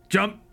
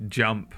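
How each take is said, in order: First: High-pitched shouted order; short in-game command shout. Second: Said in the usual way. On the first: Acted. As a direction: order them to jump, pitched well up. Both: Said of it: "and shout".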